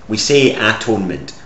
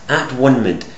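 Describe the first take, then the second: First: The middle part sounds like the word 'tone'. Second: The middle part sounds like the word 'one'. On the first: The state of being a tone or sound. The speaker calls it right. "which is actually how we say it" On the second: The state of being at one. The speaker calls it wrong. "the state of being at one"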